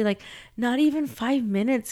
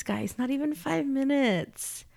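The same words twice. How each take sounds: First: Said in the usual way. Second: "not even five minutes" repeated slower, higher, leaning on "five"; emphatic repeat. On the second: Shown as a demonstration. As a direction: drive home "five" with a slow restatement.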